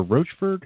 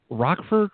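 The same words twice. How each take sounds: First: "Rochford" with a ch sound, questioning; soft CH pronunciation. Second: "Rockford" with a hard k sound; hard K pronunciation. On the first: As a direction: ask "Rochford" with ch as in roach. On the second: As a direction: say "Rockford" like the word rock. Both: Shown as a demonstration. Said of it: "How do you pronounce the last name?".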